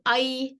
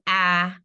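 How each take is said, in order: First: The vowel is pronounced like 'eye'. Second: The vowel is pronounced like 'eh'. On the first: This is the Maharashtra pronunciation. "So in Maharashtra, we'd pronounce this as I" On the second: This is the North Indian Hindi pronunciation. "In North India, if you if you're Hindi speaking, you'd pronounce it as A"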